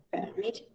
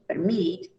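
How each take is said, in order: First: "Permit" stressed on PER; very soft "Permit", weight on the first syllable; noun stress. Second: "permit" stressed on MIT; soft "permit", weight on the second syllable; verb stress. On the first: Teacher confirming the noun, first-syllable stress on "Permit". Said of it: "On the first syllable". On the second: Teacher confirming the verb, second-syllable stress on "permit". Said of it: "On the second syllable". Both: Shown as a demonstration.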